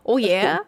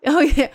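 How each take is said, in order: First: A mock Fargo-accent "Oh, yeah?" with a rising tone. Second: Said in the usual way. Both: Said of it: "my favorite was the".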